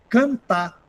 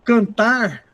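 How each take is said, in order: First: The final r sound is dropped. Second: The final r sound is pronounced.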